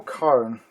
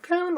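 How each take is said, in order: First: "Cairn" with the open vowel of "car". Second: "Cairn" rhyming loosely with "bairn", vowel as in "care"; CAIRN with an "air" vowel. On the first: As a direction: say "Cairn" like "KAR-un". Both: Shown as a demonstration. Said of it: "is it Cairn or Cairn?".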